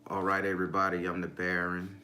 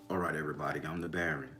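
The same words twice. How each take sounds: First: It is said in his normal voice. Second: It is said in a deep voice.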